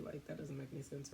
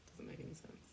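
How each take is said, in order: First: Said in the usual way. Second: "Doesn't make any sense" whispered, no voice. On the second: Real, not acted. Repeats phrase as a whisper.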